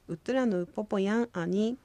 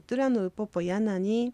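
First: Yan and ani are said as separate words. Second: Yan and ani run together as yanani.

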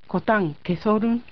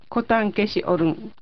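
First: The 'i' and 'o' merge into one 'so' sound. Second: The 'si' and 'o' are said as separate syllables.

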